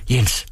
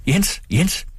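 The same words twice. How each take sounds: First: Said in the usual way. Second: High call across the yard; mother calling Jens, high. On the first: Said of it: "sagde moren". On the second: A narrator's reading. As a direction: call the stableman from afar. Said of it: "Hun råbte på rygteren".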